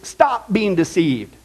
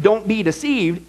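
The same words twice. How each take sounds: First: "stop" leaned on, slow and weighty; slow down and punch "stop" in "stop being deceived"; stress on stop. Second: Said in the usual way. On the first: Shown as a demonstration. Preacher correcting the Greek, pressing hard on "stop". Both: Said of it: "it's not just ... it's".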